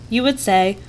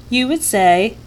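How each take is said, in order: No difference in how they are said.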